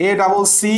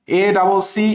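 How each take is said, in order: Both takes have the same delivery.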